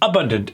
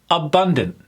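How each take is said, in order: First: The stress is not on the second syllable. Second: The stress is on the second syllable. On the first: The speaker calls it wrong. "but the syllable was off" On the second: The speaker calls it right. "If it's on the second syllable, you're absolutely correct"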